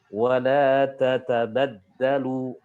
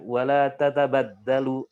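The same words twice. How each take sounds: First: Each short 'a' vowel is pronounced fully. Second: The short 'a' vowels are rushed and clipped. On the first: The speaker calls it right. "harusnya dibaca" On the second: The speaker calls it wrong.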